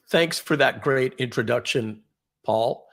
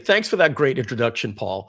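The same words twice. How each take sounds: First: There is a clear pause before 'Paul'. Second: It runs on to 'Paul' without a pause.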